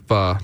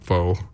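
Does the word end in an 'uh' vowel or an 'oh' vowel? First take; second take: uh; oh. First: The word ends in a short 'uh' vowel. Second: The word ends in a long 'oh' vowel. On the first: The speaker calls it right. "it's actually fa" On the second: The speaker calls it wrong. "not fo"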